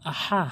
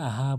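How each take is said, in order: First: The 'ha' sound is pressed hard. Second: The 'ha' sound is said lightly. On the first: The speaker calls it right. "হাটে চাপ দিয়ে বলবেন" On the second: The speaker calls it wrong. "অনেকে ভুল করে আহা বলে"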